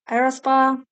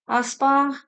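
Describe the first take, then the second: First: The name is said with an R sound. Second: The name is said without an R sound.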